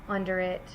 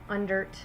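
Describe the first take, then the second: First: It is said in full as two words. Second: It is contracted into one word.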